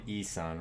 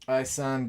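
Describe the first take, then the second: First: The first vowel is an 'ee' sound. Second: The first vowel is not an 'ee' sound. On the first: The speaker calls it right. "Like E, the letter" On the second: The speaker calls it wrong. "I don't think I've pronouncing, been pronouncing his first name right"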